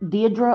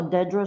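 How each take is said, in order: First: "Deirdre" with a long ee first; "Deirdre" opening on DEE; DEE-dra pronunciation. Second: "Dedra" with a short e first; "Dedra" opening on DED, as in bed; DED-ra pronunciation. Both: Shown as a demonstration. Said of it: "I don't wanna mispronounce your name".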